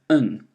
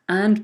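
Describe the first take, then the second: First: The word is reduced to a weak vowel. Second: The word keeps its full vowel.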